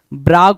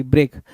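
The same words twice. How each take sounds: First: ब्राग said brag with an open a; correct word. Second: ब्रेग read as written, breg with an e vowel; misspelled reading. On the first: Teacher gives students the corrected word, brag. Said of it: "ब्राग बोलोगे". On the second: Teacher reads the wrong spelling aloud, breg. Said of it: "ब्रेग नहीं". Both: Shown as a demonstration.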